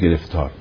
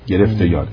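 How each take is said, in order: First: It is said as one joined word. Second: It is split into two parts with a y sound. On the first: One is trapped in trouble. The speaker calls it wrong. "نگید گرفتار" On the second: One has grabbed hold of the beloved. The speaker calls it right.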